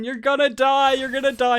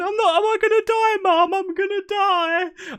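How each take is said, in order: First: Put-on high, insistent kid-brother taunt; retold taunting. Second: Very high, wailing imitation of a sister; mock crying. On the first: Ten-year-old brother scaring his nervous sister, high taunting. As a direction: needle her with a raised, teasing voice. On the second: Crying sister to mum at the piercing, squealed mock wail. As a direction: squeal it like a hammed-up terrified sob. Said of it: "she's, like, crying".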